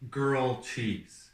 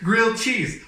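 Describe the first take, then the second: First: The first word sounds like girl. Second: The first word sounds like grilled. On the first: The speaker calls it wrong. "I used to think that the way to pronounce this certain thing was called girl cheese" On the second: The speaker calls it right. "that makes so much more sense"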